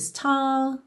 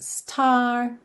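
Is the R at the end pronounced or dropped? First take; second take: dropped; pronounced. First: The final R is dropped, British style. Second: The final R is curled, American style.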